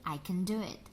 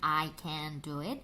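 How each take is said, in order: First: 'Can' is said weakly with a reduced vowel. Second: 'Can' is said fully with a clear vowel. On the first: The speaker calls it right. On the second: The speaker calls it wrong. "Jarang sekali mereka mengucapkan dengan"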